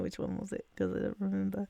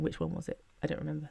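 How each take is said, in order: First: The words are mumbled and hard to make out. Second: The words are spoken clearly and distinctly.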